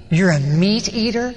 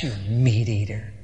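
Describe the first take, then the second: First: Slow, disbelieving question; mock incredulity, stretching the words; incredulous question. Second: Very low, soft mock contempt; contemptuous parting shot. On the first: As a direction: act out appalled disbelief, drawn out. Krishna reacts to meat confession. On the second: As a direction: mutter it as a parting insult. Krishna's parting insult.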